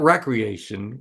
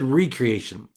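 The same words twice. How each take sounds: First: The first syllable sounds like 'reck'. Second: The first syllable sounds like 'ree'. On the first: Leisure activities for fun. "not recreation. We think of recreation, driving A T Vs" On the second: Being made new again. "But he said recreation, and he asked the question, "What recreates you?""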